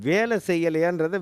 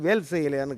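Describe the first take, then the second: First: The first word keeps its final vowel. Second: The first word drops its final vowel. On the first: Asking whether someone did the work. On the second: It sounds like asking about a spear. "வேல் செய்யலையான்னு கேட்குறான்"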